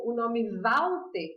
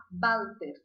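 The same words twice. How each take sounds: First: Said in the usual way. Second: Walter said as Balter; Walter, w said like a Spanish b. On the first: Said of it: "Então". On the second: Shown as a demonstration. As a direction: start Walter with a b sound. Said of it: "eu vou falar Walter".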